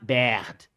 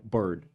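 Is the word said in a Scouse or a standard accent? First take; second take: Scouse; standard. First: The vowel sounds like the a in bad. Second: The vowel sounds like the standard ir in bird. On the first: "like they say bad" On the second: "it's like bird"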